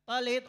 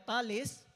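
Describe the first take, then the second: First: The word ends with a t sound. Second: The word ends with an s sound. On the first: "also pronounced either as talit" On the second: "or talis"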